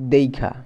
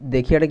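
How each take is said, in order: First: The i-sound comes before the kh sound. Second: The i-sound comes after the kh sound. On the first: "কী হবে দেইখা" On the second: "দেখিয়া"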